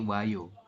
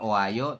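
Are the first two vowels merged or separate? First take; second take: merged; separate. First: The o and a merge into one syllable. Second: The o and a are said as separate syllables. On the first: The speaker calls it right. "tapi wayo. Langsung wayo" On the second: The speaker calls it wrong. "Bukan oayo"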